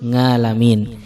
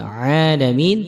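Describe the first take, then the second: First: The word starts with a nasal ng sound. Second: The word starts with a deep throat sound. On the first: The speaker calls it wrong. "kesalahan seperti ini" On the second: The speaker calls it right. "bukan alhamdulillahi rabbil alamin"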